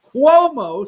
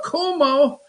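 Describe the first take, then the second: First: Cuomo said as KWOH-moh; punning pronunciation of Cuomo. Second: Cuomo said as KOO-moh; alternate pronunciation of Cuomo. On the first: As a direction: say Cuomo to rhyme with "quo". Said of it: "status Cuomo". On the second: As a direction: say Cuomo with a plain "koo" at the start. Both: Shown as a demonstration.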